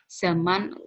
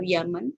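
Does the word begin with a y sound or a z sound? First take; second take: z sound; y sound. First: The word begins with a z sound. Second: The word begins with a y sound. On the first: The speaker calls it right. "Misalnya zaman" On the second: The speaker calls it wrong. "Z dilafalkan dengan Y ya"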